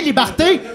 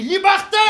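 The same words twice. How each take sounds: First: Loud rising Liberté; shouting liberty. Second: High joyful cry of Liberté; shouting liberty. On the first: Freed patient shouting Liberté in the parking lot, loud. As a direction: call Liberté out again, louder. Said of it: "J'ai crié". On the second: Freed patient shouting Liberté at the sun, high and loud. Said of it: "j'ai crié". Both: Retold or imitated.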